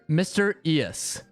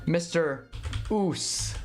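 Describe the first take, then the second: First: The name runs together to sound like mysterious. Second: The name ends in a separate oos syllable. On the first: This is the pronunciation the name was meant to have. "I would pronounce it" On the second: This is how friends read the spelling. "my friends pronounce it"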